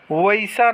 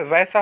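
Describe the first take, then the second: First: वैसा as "va-i-sa"; wrong split vowel. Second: वैसा as "vai-sa", open ai; correct single vowel. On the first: Teacher showing students the mistake, vowel split. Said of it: "नहीं होता है". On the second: Teacher giving students the right form, single vowel. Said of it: "होता है". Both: Shown as a demonstration.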